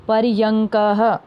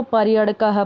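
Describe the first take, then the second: First: पर्यंकः slowly, with nasal "ng" before "ka-ha"; correct reading. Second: पर्यड़कः with a flapped "ṛa" in place of "ng"; mistaken reading. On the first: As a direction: stretch out par-yang-ka-ha in पर्यंकः. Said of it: "तो इसको कैसे पढ़ेंगे". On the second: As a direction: misread पर्यड़कः as par-ya-ṛa-ka-ha, quickly. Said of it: "ऐसे नहीं है". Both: Shown as a demonstration.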